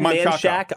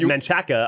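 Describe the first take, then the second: First: The name ends in a short 'shack' sound. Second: The name ends in a longer 'chaca' sound. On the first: It sounds normal to locals. The speaker calls it right. "If you said Manshack, I wouldn't think you were weird" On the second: The speaker has never been to the city. The speaker calls it wrong. "If you said Manchaca, I'd be like, oh, you've never been to Austin before"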